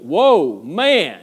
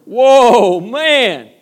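First: Loud amazed whoa; a loud, delighted exclamation; Adam's delight. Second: Much higher, much louder whoa; a higher, far louder cry of amazement; bigger delight. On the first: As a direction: burst out in wonder. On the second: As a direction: belt it out in awe. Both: Retold or imitated. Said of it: "he went".

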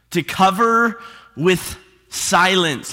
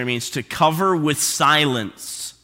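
First: To cover with silence drawn out slowly, cover stressed; preacher repeating for weight; slow emphatic repeat. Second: Said in the usual way. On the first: Shown as a demonstration. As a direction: lean on "cover" and slow right down. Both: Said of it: "Let me say that again".

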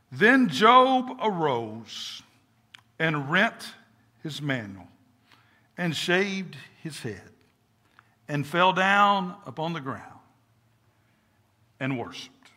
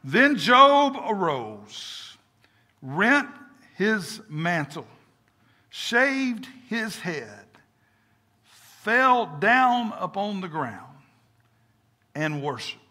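First: Measured, solemn reading with pauses; slow reading, hushed phrase endings; scripture reading. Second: Very slow, each phrase set apart; slow, deliberate re-reading with long pauses; slower reading. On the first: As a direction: read the verse in short phrases, dropping softer. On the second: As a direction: draw out every word of the verse. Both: Shown as a demonstration. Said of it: "read it a little slower".

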